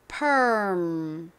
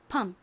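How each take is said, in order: First: It is said American-style, with an R sound. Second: It is said Korean-style, with no R sound. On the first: "실제 미국식 발음으로" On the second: "한국식으로 읽을 때에는 이 R의 소리를 빼고 읽는다"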